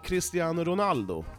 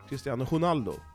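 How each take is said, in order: First: Ronaldo begins with an R sound. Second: Ronaldo begins with an H sound. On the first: "säger man ju" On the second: "man säger att R uttalas med H i portugisiska"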